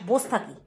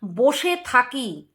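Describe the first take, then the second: First: "বস থাকি" run together as "bostaki"; shortcut pronunciation. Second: "বসে থাকি" drawn out slowly in full; full pronunciation. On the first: Retold or imitated. Vlogger mimics her "বস থাকি", clipped to bostaki. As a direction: say "বস থাকি" short, middle vowel dropped. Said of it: "কথাটাও কি বলে?". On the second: Shown as a demonstration. Vlogger shows viewers the proper "বসে থাকি", slow and full. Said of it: "যে বসে থাকি".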